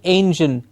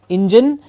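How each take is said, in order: First: The first vowel is an 'ay' sound. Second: The first vowel is not an 'ay' sound. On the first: The speaker calls it right. "It's an A sound, like day" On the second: The speaker calls it wrong. "and not engine"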